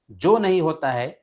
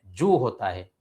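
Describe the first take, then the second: First: जो said with o as a mistake; wrong o vowel. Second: जू with a long ऊ; correct long u. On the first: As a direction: show the wrong जो. (गलत ओ) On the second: (सही ऊ) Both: Shown as a demonstration.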